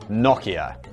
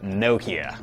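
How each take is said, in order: First: It is said in a British accent. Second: It is said in an American accent.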